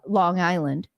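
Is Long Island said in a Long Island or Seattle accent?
Seattle. It is said in a plain Seattle accent. The speaker calls it wrong. "in proper English, coming from Washington State, Seattle"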